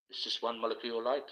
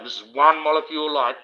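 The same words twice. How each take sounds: First: It's just one molecule light, much softer with a light rise on light; dropped quiet. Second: ONE stressed with a falling tune; one molecule light. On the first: Showing viewers the light turns ordinary on camera, hushed. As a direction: throw it away under the breath, deflated. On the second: Explaining a molecule of light to viewers, stressing one. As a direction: lean on the word one, landing it firmly. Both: Shown as a demonstration.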